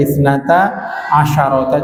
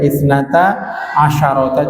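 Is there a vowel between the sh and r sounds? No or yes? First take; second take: yes; yes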